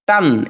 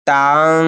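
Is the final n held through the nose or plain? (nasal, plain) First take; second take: plain; nasal. First: The n is short and plain, not nasalized. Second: The n is held with a long nasal hum. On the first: The speaker calls it wrong. "এখানে তান বলা যাবে না" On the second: The speaker calls it right. "এজন্য গুণা করে পড়তে হবে"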